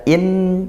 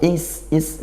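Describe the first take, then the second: First: The n is pronounced fully and clearly. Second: The n disappears directly into the s. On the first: "tidak in jelas" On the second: "tidak juga langsung masuk is is enggak"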